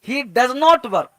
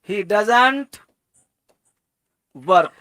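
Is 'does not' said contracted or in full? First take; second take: in full; contracted. First: Does not is said as two full words. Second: Does not is shortened into one word.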